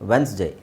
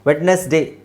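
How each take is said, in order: First: The d and middle vowel are left out. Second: The d and middle vowel are pronounced. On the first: The speaker calls it right. "ಡಿನೂ silent ಇದೆ, ಇನೂ silent ಇದೆ" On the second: The speaker calls it wrong. "ವೆಡ್ನೆಸ್ಡೇ ಅವಶ್ಯಕತೆ ಇಲ್ಲ, ಅವ್ರು ಯಾರೂ ಆ ಥರ ಹೇಳೋದಿಲ್ಲ"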